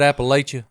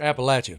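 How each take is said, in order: First: The name is said the common outsider way. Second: The name is said the local mountain way. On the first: The speaker calls it wrong. "Would you have said Appalachia? ... that's a sinful" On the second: The speaker calls it right. "how did you say it?"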